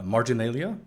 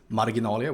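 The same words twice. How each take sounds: First: The word is pronounced the English way. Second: The word is pronounced the Swedish way. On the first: "Is that how you would say this in English?" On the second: "in Swedish, of course, it's"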